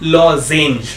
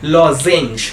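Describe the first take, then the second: Both takes have the same delivery.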